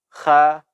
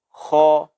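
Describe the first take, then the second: First: The letter is said light and thin. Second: The letter is said heavy and thick. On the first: The speaker calls it wrong. "Tidak boleh kita ucapkan kha" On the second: The speaker calls it right. "mesti kita tebalkan"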